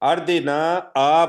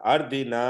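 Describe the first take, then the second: First: The final vowel is stretched with an extra 'aa'. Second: The final vowel ends without an added 'aa'. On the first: The speaker calls it wrong. "उसको आप अलग से भी लंबा करते हैं। अर्दिना आ पढ़ते हैं आप" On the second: The speaker calls it right. "ये नहीं पढ़ना अर्दिना"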